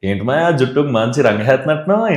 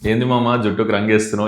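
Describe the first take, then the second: First: Flowing, melodic Godavari-style delivery. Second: Clipped, sharp Telangana-style delivery. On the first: "మీరు Godavari slang లో చెప్పమంటాడు" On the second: "ఇప్పుడు నేను ఎట్లా చెప్తా, ... అని అంటాం ఇక్కడైతే"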